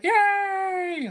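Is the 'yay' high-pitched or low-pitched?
low-pitched. The yay is said at a lower pitch.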